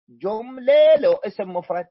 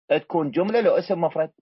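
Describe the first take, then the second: First: جملة hit higher and louder, rest of the phrase falling; stress on جملة. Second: Said in the usual way. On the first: Shown as a demonstration. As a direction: punch the word جملة to drive the rule home.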